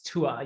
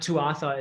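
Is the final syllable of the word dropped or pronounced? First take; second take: dropped; pronounced. First: The word is said without its final syllable. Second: The word is said with its final syllable. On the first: The speaker calls it right. "You don't say the second part of that" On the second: The speaker calls it wrong. "It's not Tuatha"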